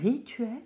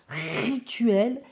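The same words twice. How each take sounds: First: The initial r is said plainly. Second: The initial r is said with strong emphasis. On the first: "au lieu de dire un rituel" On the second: "que j'accentue comme ça sur le r"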